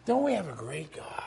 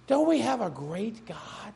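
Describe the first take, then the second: First: Whispered, much softer repeat of "Don't we have a great God?". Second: Soft repeat. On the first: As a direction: breathe the question in awe. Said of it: "repeated as whisper". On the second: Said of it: "repeated quieter". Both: Shown as a demonstration.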